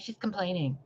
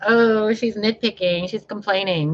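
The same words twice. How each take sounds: First: Much softer, muttered mock of critics; quiet mocking. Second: Higher, sneering impression of critics; mocking critics. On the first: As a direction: toss off the critics' words under her breath. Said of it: "And you're like". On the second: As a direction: parrot the haters with a sneer. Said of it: "So when you guys are like".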